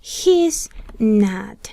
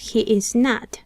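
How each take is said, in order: First: He and is merge into one syllable. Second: All three words are said fully and separately. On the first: "podemos contraer el pronombre personal con el verbo to be" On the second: "aquí tenemos he is not"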